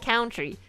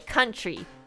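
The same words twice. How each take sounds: First: The first vowel sounds like the vowel in cow. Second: The first vowel sounds like the vowel in cup. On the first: The speaker calls it wrong. "nobody says country" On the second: The speaker calls it right. "most like people who speak English as their first language will say country"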